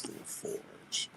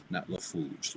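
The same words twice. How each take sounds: First: LaForge whispered with a French rolled-back r; LaForge said right. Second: LaFouge whispered, r dropped into an oo sound; wrong LaFouge. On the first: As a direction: say LaForge softly, French style. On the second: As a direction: breathe LaFouge as the mistaken version. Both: Shown as a demonstration.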